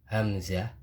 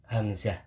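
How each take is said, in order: The two takes are said the same way.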